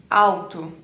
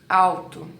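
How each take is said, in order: No difference in how they are said.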